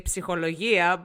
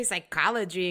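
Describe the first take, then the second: First: "psychologia" with sounded p and stress near the end; "psychologia" pronounced as in Greek, p sounded; Greek pronunciation. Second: Said in the usual way. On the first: Shown as a demonstration. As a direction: say "psychologia" the Greek way, psee-ho-lo-YEE-a. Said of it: "We say psychologia". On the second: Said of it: "we don't say psychology in Greek".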